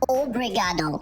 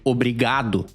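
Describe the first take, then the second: First: It is said with a foreign accent. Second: It is said with a native Brazilian accent. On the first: "quando um gringo vem aqui no Brasil falando português e fala obrigado" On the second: "em vez de obrigado"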